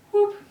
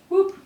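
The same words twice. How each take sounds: The two takes are said the same way.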